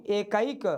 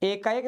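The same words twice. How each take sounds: First: एकाइक ending in a clear '-a-ik'; correct pronunciation. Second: एकाइक turned into e-kaa-ek; wrong pronunciation. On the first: Teacher corrects the wrong form for students, careful pronunciation. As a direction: sound out e-kaa-ik for एकाइक. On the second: Teacher shows students what not to say, mispronounced. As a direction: put an e, not i, before the last k of एकाइक. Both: Shown as a demonstration. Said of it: "एकाइक नहीं".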